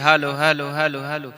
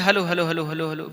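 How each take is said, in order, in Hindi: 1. गूँज लंबी देरी के साथ धीरे-धीरे दोहराती है। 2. गूँज छोटी देरी के साथ जल्दी-जल्दी दोहराती है। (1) "राक्षस वगैरह बोलता है, तो थोड़ी इसकी रिपीटिंग यहाँ से बढ़ा देंगे, तो ये थोड़ी स्लो धीरे धीरे आवाज जाएगी" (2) "नॉर्मल के लिए ... जल्दी जल्दी रिपीटिंग"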